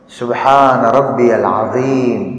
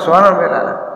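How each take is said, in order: First: It is said slowly. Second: It is said fast.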